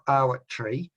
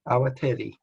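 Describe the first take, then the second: First: No vowel is heard between t and r. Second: A full vowel is heard between t and r. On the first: The speaker calls it wrong. "It's not Awatri" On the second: The speaker calls it right. "So it's Awatere"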